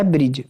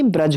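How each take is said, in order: First: ब्रिज with an "i" sound, like English bridge; ब्रिज pronounced "brij", the wrong way; wrong form shown. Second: ब्रज with a short "a", "braj"; ब्रज said plainly as "braj"; correct pronunciation. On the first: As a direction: says ब्रिज as "brij" to show the mistake. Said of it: "ये ब्रिज नहीं". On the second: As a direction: model ब्रज as "braj", no i sound. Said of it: "ब्रज होता है". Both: Shown as a demonstration.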